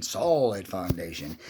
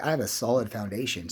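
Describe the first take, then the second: First: "solid foundation" slowly, with "solid" drawn out; emphatic repeat. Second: Said in the usual way. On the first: Real, not acted. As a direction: stretch the word "solid" for weight.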